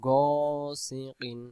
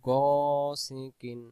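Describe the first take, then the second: No difference in how they are said.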